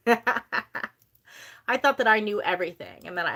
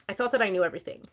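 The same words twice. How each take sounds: First: I thought that I knew everything said slowly through a laugh. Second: Said in the usual way. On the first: Real, not acted. Repeating her old know-it-all self to viewers, laughing slowly. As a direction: laugh at yourself as you repeat it.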